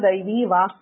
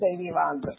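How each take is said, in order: First: The word ends in a voiceless k sound. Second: The word ends in a voiced g sound. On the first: "is how we usually say it" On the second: "You can also say it as Daivi Vag"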